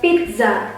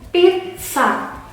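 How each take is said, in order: First: The double z lacks the 'ts' sound. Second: The double z sounds like 'ts'. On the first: The speaker calls it wrong. "bukan pizza" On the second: The speaker calls it right. "cara membacanya yang betul adalah pizza"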